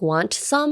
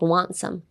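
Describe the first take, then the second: First: The T at the end of want is pronounced. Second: The T at the end of want is silent. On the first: The speaker calls it wrong. "You wouldn't say like want some" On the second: The speaker calls it right. "You'd be like want some"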